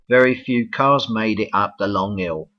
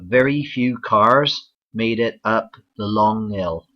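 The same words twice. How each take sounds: First: It is said in a London accent. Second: It is said in a Bristol accent. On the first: "the capital of England, London" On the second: "the southwest, for example in Bristol"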